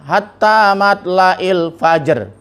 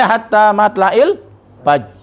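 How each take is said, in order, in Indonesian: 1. Kata itu berakhir dengan bunyi r yang jelas. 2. Kata itu berakhir pada j tanpa r.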